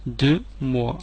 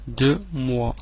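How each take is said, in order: Both takes have the same delivery.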